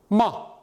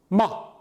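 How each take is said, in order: First: The syllable is cut off short and abruptly. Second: The syllable is cut off short and abruptly.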